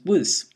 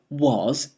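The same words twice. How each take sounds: First: It is said with a weak, reduced vowel. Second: It is said with a full, stressed vowel. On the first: "it becomes was" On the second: "instead of was"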